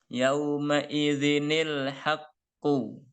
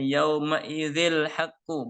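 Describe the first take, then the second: First: An extra 'ni' syllable is added before 'l'. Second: It runs straight into 'l' with no added 'ni'. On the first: The speaker calls it right. "Cara membacanya adalah yauma idzinil" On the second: The speaker calls it wrong. "ini dibacanya bukan yauma idzil haqqu, bukan"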